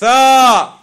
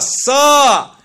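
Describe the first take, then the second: First: It starts with a th sound. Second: It starts with an s sound. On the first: The speaker calls it right. "You have in the Arabic alphabet" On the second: The speaker calls it wrong. "Many of them pronounce it as"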